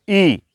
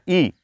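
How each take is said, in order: First: ई drawn out as a long ee. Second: ई said short and clipped, a quick i. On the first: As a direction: stretch the ई. (लंबा खींचकर बोला गया ई) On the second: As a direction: keep the ई brief. (छोटा, जल्दी बोला गया ई) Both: Shown as a demonstration. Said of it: "यहाँ पर अधिक समय लगाना".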